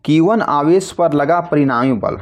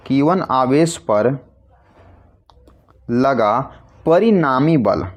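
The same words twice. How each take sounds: First: Said in the usual way. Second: Slow, word by word with pauses, for writing down; measured dictation pace, pausing between phrases. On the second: Shown as a demonstration. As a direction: dictate it slowly so students can write. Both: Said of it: "यहाँ लिखते हैं आपके लिए".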